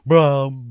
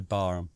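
First: An r sound follows the first b directly. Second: A vowel follows the first b directly. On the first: This is how naval officers pronounce the name. "the real naval officers pronounce it in some ludicrous fashion as Braham" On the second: This is the speaker's own everyday pronunciation. "I say Barham"

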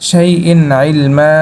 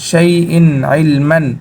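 First: The last word ends on a plain vowel. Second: The last word ends with an n sound. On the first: The reader stops at this word. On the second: The reading continues without stopping.

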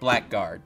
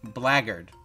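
First: The k sound is clearly pronounced. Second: The k sound is left out. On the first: The speaker calls it wrong. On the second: The speaker calls it right. "The K is silent"

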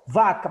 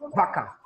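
First: The word begins with a V sound. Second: The word begins with a B sound. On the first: This is the Portuguese pronunciation. "vamos com vaca, português" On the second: This is the Spanish pronunciation. "No espanhol, a gente pode falar assim"

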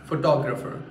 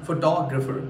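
No difference in how they are said.

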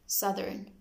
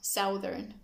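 First: The first vowel differs from the vowel in 'south'. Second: The first vowel matches the vowel in 'south'. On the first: The speaker calls it right. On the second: The speaker calls it wrong.

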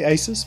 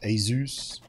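First: The word does not sound like 'Zeus'. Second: The word sounds close to 'Zeus'. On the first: The speaker calls it wrong. "I say Asus" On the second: The speaker calls it right. "apparently it's most closer to Zeus"

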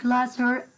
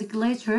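First: The word is said with a British pronunciation. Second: The word is said with an American pronunciation. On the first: "as British" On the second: "it's American pronunciation"

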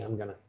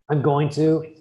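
First: Going to is blended quickly into gonna. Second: Each word of going to is said in full.

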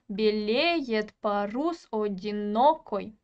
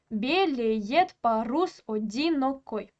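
First: Every third syllable is stressed, starting with the second. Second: Every other syllable is stressed, starting with the first. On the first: "сначала идет безударный, потом ударный, потом безударный" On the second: "Как мы рисуем хорей? Начинается все с ударного слога"

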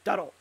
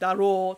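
First: The final o vowel is cut short. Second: The final o vowel is held long. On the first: The speaker sounds extremely masculine. "say daro without the long o" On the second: The speaker sounds neutral in gender. "daro turns into"

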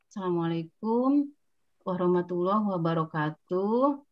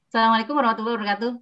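First: The greeting is drawn out very slowly. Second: The greeting is rushed and words blur together. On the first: The listener gets bored and impatient. "Tidak boleh juga lambat. Kalau lambat yang mendengarkan bosan" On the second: The listener cannot catch the words clearly. "Kalau cepat-cepat suka kelibet lidahnya"

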